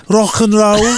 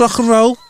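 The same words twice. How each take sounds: First: Pitched-up mock Mancunian rocker accent; not-Scouse rocker accent. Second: High, shouted mock Scouse accent. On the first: Co-host defending his Oasis impression, mock Mancunian accent. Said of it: "That wasn't Scouse". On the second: Co-host showing what Scouse really is, exaggerated Scouse accent. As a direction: belt it out in put-on Scouse. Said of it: "That's Scouse". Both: Shown as a demonstration.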